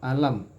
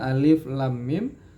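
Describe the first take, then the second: First: It is spoken as one short word. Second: It is spoken as three separate letter names. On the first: It opens Surah Al-Insyirah. "dalam surat Al-Insyirah itu dibaca alif alam nasyrah" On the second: It opens Surah Al-Baqarah. "di surat Al-Baqarah dibaca alif lam mim"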